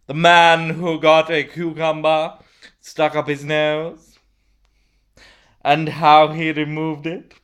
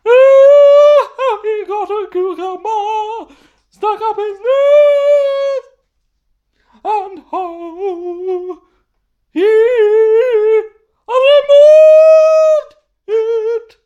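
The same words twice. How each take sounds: First: Said in the usual way. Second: Sung, very high falsetto opera, long held notes; sung, hammed-up opera, slow and soaring; operatic singing. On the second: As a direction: sing it as a wailing mock soprano aria. Bursts into the opera's title.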